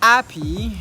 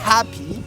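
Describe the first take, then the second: First: The word starts with no puff of air. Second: The word starts with a heavy rush of air. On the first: "là il n'y a pas d'air du tout" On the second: "Il ne s'agit pas de se vider carrément les poumons non plus"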